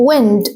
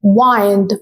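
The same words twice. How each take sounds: First: The noun Wind, short i. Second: The verb Wind, long i. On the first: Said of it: "as a noun". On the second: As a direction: Wind said as wynd, long i like kind. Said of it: "بصوا pronunciation اختلف ازاي". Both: Shown as a demonstration.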